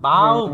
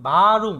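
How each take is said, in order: First: The r sound is dropped. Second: The r sound is clearly pronounced. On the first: The speaker calls it right. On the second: The speaker calls it wrong.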